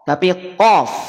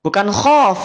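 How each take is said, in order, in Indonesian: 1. Diawali dengan bunyi q yang dalam. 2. Diawali dengan bunyi kh yang serak.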